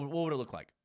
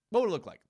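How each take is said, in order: First: Said in the usual way. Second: Louder, higher insistent question; emphatic repeat. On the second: Real, not acted. Host pressing his audience, louder and higher.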